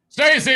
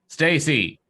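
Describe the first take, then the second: First: The name is yelled loudly. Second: The name is said at normal reading volume.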